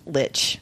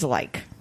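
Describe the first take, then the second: First: The word is said with an English pronunciation. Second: The word is said with a German pronunciation. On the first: "there's an English pronunciation ... at dictionary.com, it's pronounced lich" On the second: "The German pronunciation is like"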